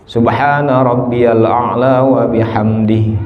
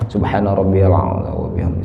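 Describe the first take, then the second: First: The phrase is recited at a moderate pace. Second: The phrase is recited as fast as possible. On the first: "standarnya doa tiga kali itu" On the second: "sa tereh-terehna ucapan"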